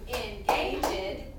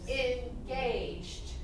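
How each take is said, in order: First: The word is said with three syllables. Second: The word is said with two syllables. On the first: The speaker calls it wrong. "if we say engaged, it has three syllables" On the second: The speaker calls it right. "It just has two syllables"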